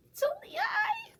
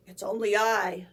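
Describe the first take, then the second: First: Very high frightened squeak; troll squeak. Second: Mild bleating goat, loud and low. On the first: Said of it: "the troll squeaked". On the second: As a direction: bleat it back bravely. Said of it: "the second billy goat bleated". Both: A narrator's reading.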